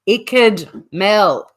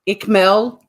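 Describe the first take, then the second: First: The first part sounds like 'wicked' without w. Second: The first part is a short 'ick' sound. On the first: The speaker calls it right. "it's Icked like wicked without a W" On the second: The speaker calls it wrong. "The next person who calls Icked Mel, Ickmel"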